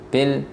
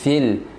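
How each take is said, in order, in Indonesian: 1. Bunyi pertama menghentikan nafas secara tiba-tiba. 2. Bunyi pertama membiarkan nafas mengalir lewat. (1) "Ini ini tidak mengalir suaranya, tidak mengalir nafasnya" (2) "terasa ada suara yang tembus"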